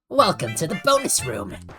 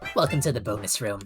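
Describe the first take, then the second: First: It is said very loudly. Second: It is said at a calm volume.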